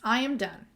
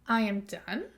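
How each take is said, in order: First: It is said as a plain statement. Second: It is said as a question.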